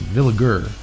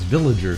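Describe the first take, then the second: First: The G is hard, like in give. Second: The G is soft, like in village. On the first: The speaker calls it right. "hard G" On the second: The speaker calls it wrong. "A lot of people mispronounce it as Villager"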